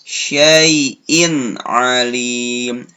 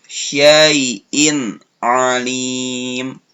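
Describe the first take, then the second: Both takes have the same delivery.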